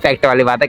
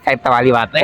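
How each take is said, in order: First: The phrase is spoken clearly without a lisp. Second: The phrase is spoken with a childlike lisp. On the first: "मैंने कहा" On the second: "ये थोड़ा तुतलाता है ... कह रहा"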